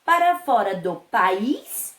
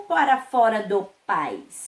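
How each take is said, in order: First: "país" in two syllables, stressed on "ís", rising; stress on last syllable. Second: "país" said as pais, one syllable stressed on "a"; stress on first syllable. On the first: Teacher offers pupils first option, stress on last syllable. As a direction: hit the "ís" of "país", questioning. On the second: Teacher offers pupils second option, stress on first syllable. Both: Shown as a demonstration. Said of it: "observando aí o acento".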